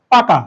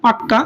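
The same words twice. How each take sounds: First: Said in the usual way. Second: পাক্কা with a held double k; জোর দিয়ে পাক্কা, ক দ্বিত্ব করে; doubled k. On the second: Shown as a demonstration. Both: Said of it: "অনেক সময় আমরা বলি না পাক্কা".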